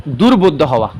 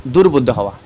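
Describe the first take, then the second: First: Dictated with weight on দুর্বোধ্য; firm dictation of দুর্বোধ্য হওয়া; emphasized answer. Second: Said in the usual way. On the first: Shown as a demonstration. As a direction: lean on দুর্বোধ্য, then drop. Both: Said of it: "তানাবুরু মানে হচ্ছে তোমার কি?".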